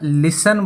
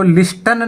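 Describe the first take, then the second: First: The t sound is left out entirely. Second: The t sound is pronounced in the middle. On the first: The speaker calls it right. "लिसन बोला जाता है" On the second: The speaker calls it wrong. "इसको लिस्टन नहीं बोला जाता"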